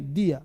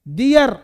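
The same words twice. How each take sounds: First: Low, falling "दिया" without the r; correct DIYA. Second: Loud "दियर" with a heavy final r; wrong DIYAR. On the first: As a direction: end "दिया" on an open vowel. (सही "दिया", नीचे सुर में, र छोड़कर) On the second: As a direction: lean hard on the r in "दियर". (ज़ोर से गलत "दियर", र बोलकर) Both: Shown as a demonstration. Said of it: "दियर नहीं".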